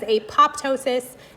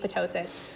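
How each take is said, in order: First: The second p sound is clearly pronounced. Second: The second p sound is silent. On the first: The speaker calls it wrong. "that word looks like it says apoptosis, and I like to think of the cells popping" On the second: The speaker calls it right. "the P T is like in pterodactyl, it's silent, it's supposed to be apoptosis"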